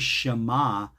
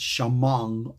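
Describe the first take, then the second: First: The word ends in a plain vowel. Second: The word ends with an ng sound. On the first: This is the modern Israeli pronunciation. "the Ein was never pronounced like they do in Israel today, like an Aleph" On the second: This is the old traditional pronunciation. "Ein was always written like an N G"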